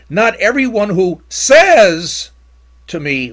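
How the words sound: The word 'says' is strongly emphasized.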